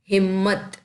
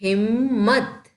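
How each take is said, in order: First: Said in the usual way. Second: Slow reading. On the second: Shown as a demonstration. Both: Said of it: "चलो पढ़ो इसे".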